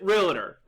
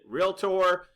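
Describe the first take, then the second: First: The word is said in a regional accent. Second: The word is said the common way. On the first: "I pronounce it realtor... that's my accent" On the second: "many of you pronounce it realtor"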